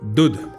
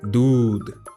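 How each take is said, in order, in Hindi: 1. u स्वर छोटा है। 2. u स्वर लंबा है। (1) "नहीं नहीं" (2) "ऊ को थोड़ा लंबा बोलना पड़ा"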